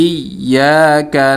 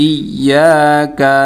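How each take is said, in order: Both takes have the same delivery.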